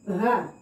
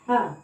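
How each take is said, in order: First: The h sound is heavy and throaty. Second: The h sound is light and ordinary. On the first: The speaker calls it right. "Yang benar ini di sini adalah membacanya dengan ha. ... ha besar" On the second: The speaker calls it wrong. "Ada antum membaca ha"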